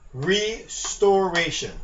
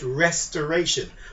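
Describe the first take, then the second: First: The word begins like the word restore. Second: The word begins like the word rest. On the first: The speaker calls it right. "you're restoring" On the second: The speaker calls it wrong. "mispronounce this word and call it restoration. But no one is resting here"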